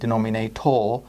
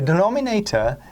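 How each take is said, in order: First: The final syllable has a full 'or' sound. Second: The final syllable has a reduced, weak vowel. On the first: "pronouncing it denominator to help you remember the correct spelling" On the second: "it's not pronounced that way"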